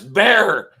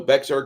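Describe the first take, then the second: First: The name is said like the word 'bear'. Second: The name is said with an x sound, like 'bexar'. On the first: This is what the locals say. The speaker calls it right. "No, that's Bear" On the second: This is a guess from the spelling. The speaker calls it wrong. "So Bexar County"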